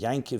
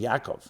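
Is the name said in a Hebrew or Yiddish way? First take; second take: Yiddish; Hebrew. First: The name is said the Yiddish way, as Yankiv. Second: The name is said the Hebrew way, as Yaakov. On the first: It is just a casual everyday way of saying it. "It's like people speak Yiddish, say Yankiv" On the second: This is the name actually meant. "They're really saying Yaakov"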